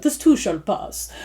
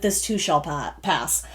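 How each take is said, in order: First: Soft, slow, botched British accent; attempted British accent. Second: Said in the usual way. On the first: Shown as a demonstration. Reader jokes with listeners, badly attempting a British accent. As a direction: try a British accent and miss it slightly. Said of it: "with a British accent". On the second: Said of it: "almost said that with a British accent".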